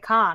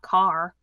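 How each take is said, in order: First: It is said in a Massachusetts accent. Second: It is said in a standard accent. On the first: "like in Massachusetts. People say car" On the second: "not car"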